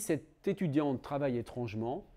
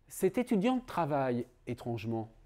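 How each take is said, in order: First: Étrangement flows on from the verb without a break. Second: Étrangement is set apart from the verb by a break. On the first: The way the student works is strange. "là j'ai plutôt tendance à dire que euh, l'adverbe étrangement est un adverbe de manière" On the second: It is strange that the student works at all. "Ça veut dire qu'il est étrange que cet étudiant travaille"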